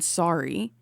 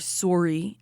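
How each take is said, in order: First: It is said in the speaker's usual accent. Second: It is said with a regional, Canadian-like vowel.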